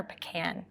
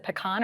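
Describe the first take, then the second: First: "pecan" said as puh-KAN; "pecan" ending just like "can"; pronounced puh-KAN. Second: "pecan" said as puh-KAHN; "pecan" rhyming with "on"; pronounced pee-KAHN. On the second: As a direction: say "pecan" with an AH in the stressed last syllable. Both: Shown as a demonstration. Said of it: "Is it pecan or pecan?".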